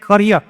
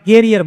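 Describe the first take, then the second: First: The first vowel sounds like 'u' in but. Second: The first vowel sounds like 'e' in bed. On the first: It names a profession or career. The speaker calls it right. "એનું pronunciation છે કરિયર" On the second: It names the rack at the back of a bicycle. The speaker calls it wrong. "કેટલાક લોકો કેરિયર બોલે, કેરિયર નહીં ભાઈ"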